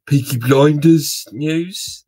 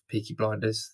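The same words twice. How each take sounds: First: Slow, hammed-up Birmingham accent, pitched up; badly faked Brummie, loud and stretched out. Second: Said in the usual way. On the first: Host announces Peaky Blinders news, bad Birmingham accent. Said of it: "That was a really bad impression of Peaky Blinders". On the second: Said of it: "That was a really bad impression".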